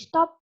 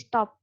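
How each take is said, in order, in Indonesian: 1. Bunyi "p" ditahan panjang dan ditekan. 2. Bunyi "p" pendek dan tunggal. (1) "nggak usah stop jadi stop. kan terlalu nekan ya" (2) "dia cukup dibaca satu"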